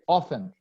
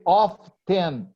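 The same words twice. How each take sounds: First: The T sound in the middle is silent. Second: The T sound in the middle is pronounced. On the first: The speaker calls it right. "we say often. ... you don't pronounce the letter T" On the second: The speaker calls it wrong. "We don't say often"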